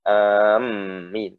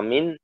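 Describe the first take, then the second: First: The m sound is doubled and heavy. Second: The m sound is short and light. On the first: The speaker calls it wrong. "bukan amin" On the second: The speaker calls it right. "khafifatan maksudnya amin"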